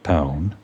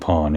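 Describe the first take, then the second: First: The vowel sounds like in 'pound'. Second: The vowel does not sound like in 'pound'. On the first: The speaker calls it right. "Like pound" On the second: The speaker calls it wrong. "keep on saying pawn incorrectly"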